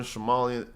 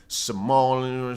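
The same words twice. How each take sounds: First: Said in the usual way. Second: Somalian slowed right down, middle stretched long; drawn-out Somalian. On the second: Shown as a demonstration. Streamer mixing up the names, Somalian dragged out slowly. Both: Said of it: "it's all the same to me".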